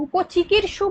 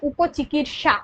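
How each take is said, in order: First: "উপচিকিৎসু" with a final "su"; wrong word ending. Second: "উপচিকিৎসা" slowly, with a final long "sha"; correct word ending. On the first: Teacher rejecting the faulty form, "উপচিকিৎসু" with -su at the end. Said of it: "বলে কোনো শব্দ হয় না". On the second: Teacher giving the true form, "উপচিকিৎসা" slowly with -sha at the end. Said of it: "কথাটা হয় উপচিকিৎসা". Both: Shown as a demonstration.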